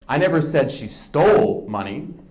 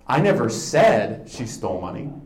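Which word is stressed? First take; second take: stole; said. First: The word 'stole' is stressed. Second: The word 'said' is stressed.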